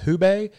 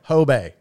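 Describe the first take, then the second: First: The first syllable sounds like 'hoo'. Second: The first syllable sounds like 'ho'. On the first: The speaker calls it wrong. "I would always call it the Hubay" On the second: The speaker calls it right. "think of like ho, ... So like Hobay is how you say it"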